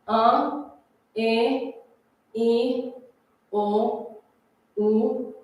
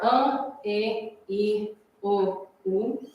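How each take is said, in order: First: The vowels are said slowly. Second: The vowels are said at normal speed.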